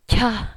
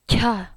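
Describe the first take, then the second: First: The syllable comes with a strong puff of air. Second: The syllable comes with a strong puff of air.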